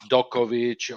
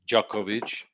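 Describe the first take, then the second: First: The name starts with a plain 'd' sound. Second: The name starts with a soft 'dj' sound. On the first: The speaker calls it wrong. "they sometimes say like Dokovic" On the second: The speaker calls it right. "but it's Djokovic"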